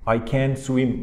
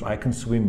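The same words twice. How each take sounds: First: The word 'can' has a full, strong vowel. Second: The word 'can' has a weak, reduced vowel. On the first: The speaker calls it wrong. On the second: The speaker calls it right.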